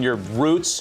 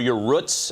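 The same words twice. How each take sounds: First: Roots is said with a standard pronunciation. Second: Roots is said with a Pittsburgh local pronunciation.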